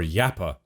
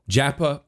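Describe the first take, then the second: First: The name begins with a Y sound. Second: The name begins with a J sound. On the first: This is how a Swede would say the name. "the Swedes, if he's Swedish, it's Yappa" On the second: This is the usual English reading of the name. "I'm going to say Japa"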